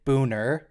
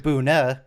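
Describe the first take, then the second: First: The word ends with an audible R sound. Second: The word ends without any R sound. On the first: This is an anglicized local way of saying it. "some people pronounce it Booner with an R" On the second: This is the original German way of saying it. "which is how it's pronounced in German"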